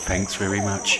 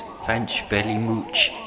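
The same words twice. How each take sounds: First: It is said with normal, clear pronunciation. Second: It is said with a speech impediment. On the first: The speaker calls it right. "instead of" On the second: The speaker calls it wrong. "who's got a speech impediment and says"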